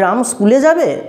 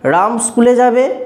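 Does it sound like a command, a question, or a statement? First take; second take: question; statement. First: The voice bends upward like a curious question. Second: The voice is plain and neutral, without emotion. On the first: The speaker wants to know whether Ram will go. "কণ্ঠস্বরটাকে একটু বাঁকিয়ে বললাম" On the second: The speaker simply gives the information. "এমনি সাধারণ একটা মনোভাব"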